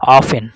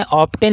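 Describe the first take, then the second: First: "ऑफ एन" with no T after the F; often with silent T. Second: "ऑफ टेन" with a hard T starting "टेन"; often with T sounded. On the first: Teacher showing students how it is read, T silent in "ऑफ एन". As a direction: drop the T, saying "ऑफ एन". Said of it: "टी का उच्चारण क्या हो जा रहा है". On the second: Teacher showing students the spelling-based reading, T sounded in "ऑफ टेन". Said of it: "ऑफ टेन ना पढ़ के". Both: Shown as a demonstration.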